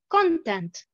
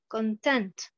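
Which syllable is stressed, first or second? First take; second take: first; second. First: The stress is on the first syllable. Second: The stress is on the second syllable. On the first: It is a noun. "la deuxième colonne, nous avons l'accentuation sur la première syllabe" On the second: It is a verb. "la première colonne, pratiquement, j'ai l'accentuation sur la deuxième syllabe"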